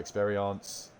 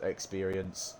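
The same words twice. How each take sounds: First: It is pronounced in a French way. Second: It sounds like the English word experience. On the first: The speaker calls it right. "It's experience or experience" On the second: The speaker calls it wrong. "I know it's not pronounced experience"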